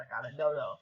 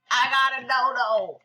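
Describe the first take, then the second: First: Said in the usual way. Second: High, loud triumphant announcement; excited shout. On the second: Real, not acted. Gamer telling viewers about a dodo, excited shout. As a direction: shout the amazing news. Repeats the news, exclaiming.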